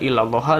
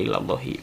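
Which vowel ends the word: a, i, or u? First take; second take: a; i. First: The word ends with an a vowel. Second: The word ends with an i vowel. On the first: "enggak illallaha" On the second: "enggak illallahi"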